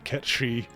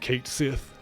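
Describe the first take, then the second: First: It is said in the speaker's own pronunciation. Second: It is said in the commonly used pronunciation. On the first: "I say Ket Shi" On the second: "instead of Kate Sith"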